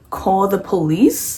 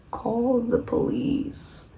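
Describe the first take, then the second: First: Slow, rising question; drawn-out questioning advice. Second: High, soft and drawn out; slow, hushed advice. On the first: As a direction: stretch it out and lift the end like a question. [name] repeats his advice to Jesse. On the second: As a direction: stretch it out slowly and softly, retelling the advice. [name]'s drawn-out advice on the phone. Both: Retold or imitated.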